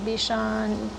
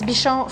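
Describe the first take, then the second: First: It is pronounced with English sounds. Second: It is pronounced with French sounds. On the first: "But I think in English" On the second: "It's Bichon frisé in French"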